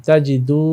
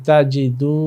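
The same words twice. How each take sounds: No difference in how they are said.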